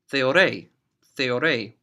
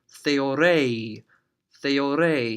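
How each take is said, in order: First: The final vowel is short and clipped. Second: The final vowel is stretched out long.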